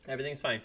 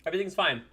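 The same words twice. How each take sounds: First: Said in the usual way. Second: Forced everything's fine, high; insisting it's fine while hurting; strained reassurance. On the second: Real, not acted.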